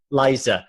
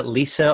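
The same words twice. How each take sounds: First: "Liza" said LIE-zuh, with a long i; correct name pronunciation. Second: "Lisa" said LEE-suh, with an ee; mispronounced name. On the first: Client correcting the therapist on the name, pronounced "Liza". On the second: Client telling therapist how people get the name wrong, mispronounced as "Lisa". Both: Shown as a demonstration.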